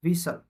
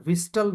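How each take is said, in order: First: વિસલ with the T dropped, S into L; silent T. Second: વિસ્ટલ with a T sounded after S; mispronounced T. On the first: Teacher correcting the mistake for students, silent T. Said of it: "વિસ્ટલ નહીં". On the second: Teacher warning students off the mistake, T pronounced. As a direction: say વિસ્ટલ, wrongly keeping the written T. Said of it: "નહીં". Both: Shown as a demonstration.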